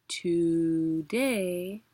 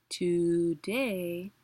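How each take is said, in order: The two takes are said the same way.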